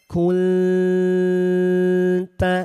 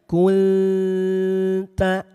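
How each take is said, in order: No difference in how they are said.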